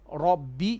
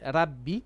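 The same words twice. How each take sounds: First: The r is said heavy and full. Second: The r is said light and thin. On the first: The speaker calls it right. "make your ra heavy" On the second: The speaker calls it wrong. "you did not make your ra heavy"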